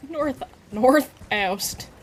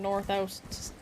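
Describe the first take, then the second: First: NORTH OUST drawn out slowly and loudly; mock-emphatic "north oust", each word stretched; exaggerated repeat. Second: Said in the usual way. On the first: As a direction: say "north oust" again, slow and punched up. Repeats made-up direction for laughs.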